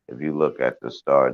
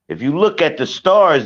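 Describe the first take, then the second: First: It is said in a plain everyday voice. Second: It is said in a put-on preacher voice. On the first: It is checked to see if it makes sense. "I'm gonna say what you said back to myself in my voice" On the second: It sounds convincing and profound. "You're not gonna get me with the preacher voice"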